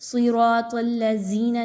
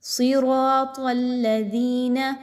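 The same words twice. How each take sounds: First: The 'dh' is a hard z sound. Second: The 'dh' is a soft th sound. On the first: The speaker calls it wrong. "जा की तरह नहीं पढ़ना। सिरातल्लज़ीना नहीं कहना" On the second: The speaker calls it right. "यहाँ पर दाल को बहुत नरमी के साथ पढ़ना है"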